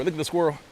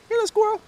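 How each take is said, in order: First: Said in the usual way. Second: Squirrel cooed way up high. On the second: Real, not acted.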